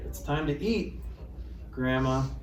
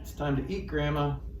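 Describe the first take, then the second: First: There is a pause before the word Grandma. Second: There is no pause before the word Grandma. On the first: Grandma is being told it is time to eat. The speaker calls it right. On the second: Grandma is the thing to be eaten. The speaker calls it wrong.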